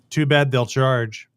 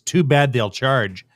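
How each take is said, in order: First: It is said in a plain, neutral tone. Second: It is said with a pointed, snarky tone. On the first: The speaker calls it right. "He just says" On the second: The speaker calls it wrong. "he doesn't say it with that tone"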